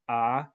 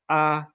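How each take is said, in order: First: The pitch rises from low to high. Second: The pitch stays high and level. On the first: "for the rising tone" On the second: "the high flat"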